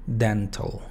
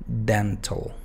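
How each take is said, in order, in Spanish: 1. La última sílaba tiene una vocal reducida. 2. La última sílaba tiene una vocal reducida.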